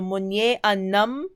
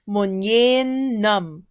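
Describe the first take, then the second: First: The vowel before nam is pronounced. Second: The vowel before nam is dropped.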